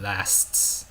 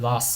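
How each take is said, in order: First: It is said with an American accent. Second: It is said with a British accent.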